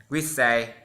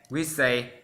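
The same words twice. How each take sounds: The two takes are said the same way.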